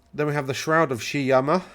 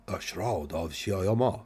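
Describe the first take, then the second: First: Said in the usual way. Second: Slow, drawn-out put-on foreign accent for the Shroud of Shiyama; vague mock accent. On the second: Shown as a demonstration. Reading out a magic item's name to co-hosts, in a mock foreign accent. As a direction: intone Shiyama in a half-hearted unplaceable accent. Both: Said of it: "I don't know what accent that was supposed to be".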